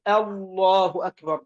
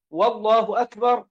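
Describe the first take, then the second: First: Slow "Allahu akbar" opening directly on A in الله; correct takbir. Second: "wallahu akbar", waw before the first word; added initial waw. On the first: Teacher models what to say, الله begun without waw. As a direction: start الله cleanly on the hamza, no waw, slowly. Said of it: "إنما قل". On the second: Teacher repeats the invalid takbir, waw in front of والله. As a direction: begin with "wa-", saying والله أكبر. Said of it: "لا تصح". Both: Shown as a demonstration.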